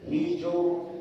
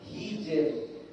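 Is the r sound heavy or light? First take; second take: heavy; light. First: The r is heavy with rounded lips. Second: The r is light with spread lips. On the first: The speaker calls it wrong. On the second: The speaker calls it right. "pokoknya lebar"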